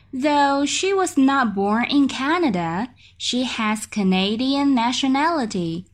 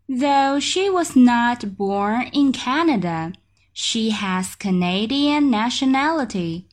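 No difference in how they are said.

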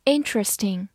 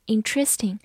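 First: "Interesting" with the beat up front, light ending; first-syllable stress. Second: "interesting" with the beat moved off its first syllable; misplaced stress. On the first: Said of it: "注意重音放在第一个音上". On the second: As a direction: stress "interesting" on the second syllable, in-TRES-ting. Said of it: "注意重音放在第一个音上，不要读成". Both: Shown as a demonstration.

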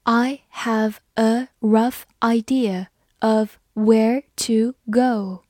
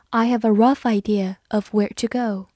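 First: Slow, word-by-word model reading. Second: Said in the usual way. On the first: Shown as a demonstration. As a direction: read it slowly, pausing between each word. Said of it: "慢读一遍".

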